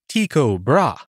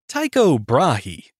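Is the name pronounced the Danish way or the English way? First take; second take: Danish; English. First: The name is said with Danish pronunciation. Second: The name is said with English pronunciation.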